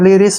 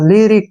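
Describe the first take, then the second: First: The word ends with an s sound. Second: The word ends with a k sound. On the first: The speaker calls it wrong. "इसको अक्सर गलती पढ़ते हैं लिरिस बोलते हैं तो गलत है" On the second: The speaker calls it right. "सी का उच्चारण कै के रूप में होगा"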